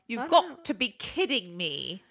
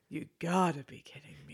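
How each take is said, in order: First: It is said in a British accent. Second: It is said in the speaker's ordinary accent.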